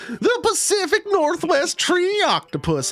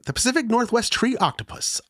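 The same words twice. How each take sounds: First: It is read in a put-on old prospector voice. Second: It is read in the speaker's ordinary voice.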